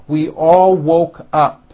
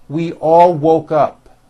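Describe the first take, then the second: No difference in how they are said.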